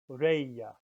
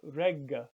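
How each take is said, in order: First: The middle consonant sounds like an English Y. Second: The middle consonant is a hard G sound. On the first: The speaker calls it right. "but reya" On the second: The speaker calls it wrong. "So not regga"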